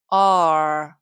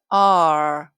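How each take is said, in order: First: The full letter name with its vowel is said. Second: The full letter name with its vowel is said.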